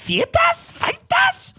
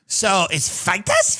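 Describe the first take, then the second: First: Feitas sung out much higher, mocking a South African accent. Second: Said in the usual way. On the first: Mocking the South African accent to his cohost, much higher South African accent. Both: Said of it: "you wanna talk about accents that are horrible?".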